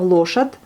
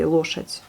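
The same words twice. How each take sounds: First: Лошадь ending on a clear voiced D; hard D ending. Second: Лошадь ending in a devoiced T; final T sound. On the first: Teacher demonstrating the wrong form to students, лошадь with clear D. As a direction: say лошадь with a full D, not a T. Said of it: "vous entendrez bien le D". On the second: Teacher modelling correct form for students, лошадь with T sound. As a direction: say лошадь with the D heard as a soft T. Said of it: "on l'entend comme un T". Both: Shown as a demonstration.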